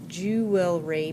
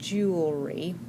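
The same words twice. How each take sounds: First: The word is sounded out as it is spelled. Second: The word is said the ordinary everyday way.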